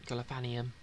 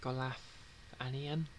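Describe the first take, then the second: First: Said in the usual way. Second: Golathanian? said slowly, rising as if asking; slow, questioning Golathanian?; unsure try at a name. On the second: Shown as a demonstration.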